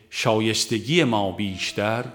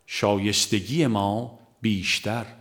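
The two takes are said the same way.

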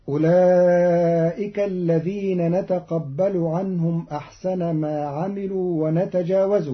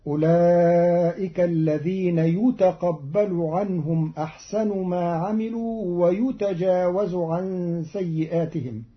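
First: Said in the usual way. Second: يتقبل ويتجاوز بياء مضمومة وأحسنُ مرفوعة; اقرأ يُتقبل ويُتجاوز بالياء المضمومة; بالبناء للمجهول. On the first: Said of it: "قرأ قالون الكلمات". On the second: Shown as a demonstration. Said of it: "بياء مضمومة في الفعلين". (قراءة قالون يُتقبل بالياء)

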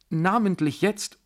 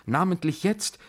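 First: Namentlich jetzt with namentlich pushed up even higher, rising; desperate stress on namentlich. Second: Namentlich jetzt with jetzt lifted and rising, much higher; desperate stress on jetzt. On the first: General repeats namentlich jetzt more urgently, namentlich stressed. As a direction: repeat it, now hitting namentlich. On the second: General insists on now, Namentlich jetzt, desperate rising jetzt. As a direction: lean hard on jetzt, pleading. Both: Acted. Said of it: "rief er ganz verzweifelt".

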